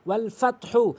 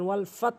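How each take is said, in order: First: The phrase ends with a 'hu' vowel. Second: The phrase stops on the final consonant. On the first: The recitation continues without stopping. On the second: The reciter pauses at the end of the verse.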